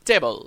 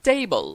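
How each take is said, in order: First: "টেবল" with a short e, "teh-bol"; common mispronunciation. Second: "টেবল" with a gliding "tay", "tay-bol"; correct pronunciation. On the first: Teacher shows learners their usual slip, short vowel. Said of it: "কিন্তু আমরা বলে থাকি". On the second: Teacher models the right word, correct "ei" vowel. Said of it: "এই উচ্চারণটা হবে". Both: Shown as a demonstration.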